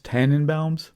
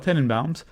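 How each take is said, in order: First: The first syllable is said like 'tan'. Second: The first syllable is said like 'ten'. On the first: The speaker calls it wrong. "I've always heard it as Tannenbaums, like Christmas tree in German" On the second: The speaker calls it right. "I had to be careful how I pronounce that"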